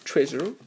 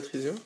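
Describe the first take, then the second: First: "Treasure" with an approximate English accent; attempted English accent. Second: Said in the usual way. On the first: Shown as a demonstration. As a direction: try "Treasure" the English way, French speaker's attempt. (accent anglais approximatif) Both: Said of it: "J'ai pas un super accent anglais".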